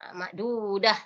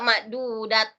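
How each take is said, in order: First: The word ends with an h sound. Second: The word ends with a t sound. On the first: The speaker calls it right. "Jadi bunyinya menjadi bunyi ha" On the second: The speaker calls it wrong. "Jadi bukan juga ma'dudat"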